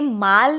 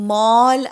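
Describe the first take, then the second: First: The vowel is an open, unrounded 'ah'. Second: The vowel is a rounded 'aw'. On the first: The speaker calls it wrong. "पण ते माल नाहीये" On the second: The speaker calls it right. "ते मॉल आहे. गोल करायचं तोंड"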